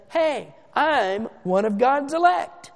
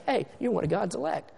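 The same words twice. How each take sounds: First: Slow, higher, chest-out bragging; mock a proud man announcing himself; puffed-up boast. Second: Said in the usual way. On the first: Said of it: "stick out your check, your chest rather". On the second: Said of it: "no pride, no boasting in that".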